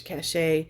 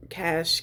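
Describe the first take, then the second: First: "cache" as two syllables, "ka-SHAY"; two-syllable pronunciation. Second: "cache" as one syllable, like "cash"; one-syllable pronunciation. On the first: Vlogger quoting others' pronunciation, "cache" said like "cashay". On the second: Vlogger comparing pronunciations, "cache" said like "cash". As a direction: say "cache" rhyming with "dash". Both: Shown as a demonstration. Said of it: "some people say caches".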